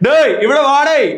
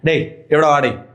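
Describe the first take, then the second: First: The volume is not a balanced medium level. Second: The volume is a balanced medium level. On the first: The speaker calls it wrong. "അങ്ങനെയല്ല" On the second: The speaker calls it right. "ആ ഒരു medium sound"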